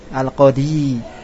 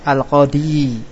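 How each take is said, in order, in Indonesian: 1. Bunyi 'y' di akhir itu bertasydid dan ditahan. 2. Bunyi 'y' di akhir itu bertasydid dan ditahan.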